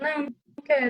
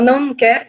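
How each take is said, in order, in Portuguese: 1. Fala-se com uma voz mais grave e mais baixa. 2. Fala-se com uma voz mais cheia e mais alta. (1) "com uma voz um pouco mais baixa" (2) "nesse tom de voz"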